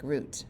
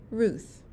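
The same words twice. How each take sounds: First: Root for Ruth, ending in a t; Spanish pronunciation. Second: Ruth ending in an English th; American pronunciation. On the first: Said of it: "In Spanish, it sounds like root". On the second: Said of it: "American-style name". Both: Shown as a demonstration.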